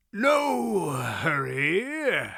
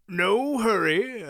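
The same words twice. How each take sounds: First: Very slow, wheezy cackling voice; wheezy cackle. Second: Slow, wheezy and cracking; wheezy old voice. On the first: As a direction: cackle it out like a doddering old man. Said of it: "his wheezy cackle". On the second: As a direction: wheeze it out like a doddering old man. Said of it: "wheezy, cracking voice". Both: A narrator's reading.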